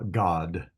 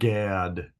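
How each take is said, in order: First: The vowel is an open 'o' sound. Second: The vowel is an 'a' as in cat. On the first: The speaker calls it right. "this is pronounced as if it was a uh, kind of a uh, O sound" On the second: The speaker calls it wrong. "not Gad, as as we would say in English"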